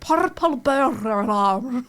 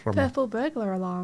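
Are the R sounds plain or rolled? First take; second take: rolled; plain. First: The R sounds are rolled in a put-on accent. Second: The R sounds are plain, not rolled.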